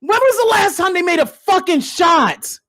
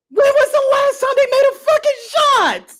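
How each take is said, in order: First: Said in the usual way. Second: Much higher, strained repeat; squeaky incredulous cry; high pleading wail. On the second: Real, not acted. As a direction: beg the question in disbelief. Repeated question.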